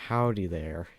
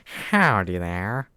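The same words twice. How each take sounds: First: A hint of a Southern US drawl on "Howdy"; casual southern "Howdy there", barely put on; light southern accent. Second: Loud, slow, drawn-out Southern US "Howdy", rising at the end; exaggerated southern accent. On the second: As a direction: ham up a cowboy southern drawl, stretching every word. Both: Shown as a demonstration. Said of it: "I guess I could say stuff like".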